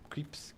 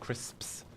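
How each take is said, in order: First: Said in a French accent without the sps cluster. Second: Said in a plain English accent with the sps cluster.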